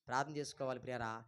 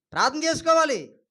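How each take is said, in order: First: Very low, hushed and quick; quiet appeal to the congregation; soft exhortation. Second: High, raised pulpit voice; firm, ringing instruction; emphatic exhortation. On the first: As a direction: drop to a gentle aside. Repeats the exhortation softly. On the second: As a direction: call it out as a command. Answers own question, then repeats softly. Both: Real, not acted.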